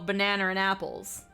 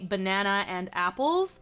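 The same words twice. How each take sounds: First: An R sound links banana to and. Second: No R sound links banana to and. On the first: "They go banana and apples. And that's where you hear that R" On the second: "we would say banana and apples"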